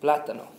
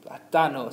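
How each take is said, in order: First: "Plátano" echoed loudly as PLA-ta-no; PLA-ta-no, loud first syllable; stress on first A. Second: "Platano" echoed loudly as pla-TA-no; pla-TA-no, loud middle syllable; stress on second A. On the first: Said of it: "we stress, uh, the vowel with the accent". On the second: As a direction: punch the TA in "Platano". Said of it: "we're stressing that second A". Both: Shown as a demonstration.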